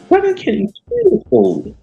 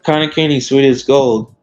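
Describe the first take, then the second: First: It is said in a put-on leprechaun voice. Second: It is said in his own normal voice.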